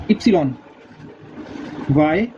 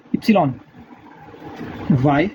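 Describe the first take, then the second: No difference in how they are said.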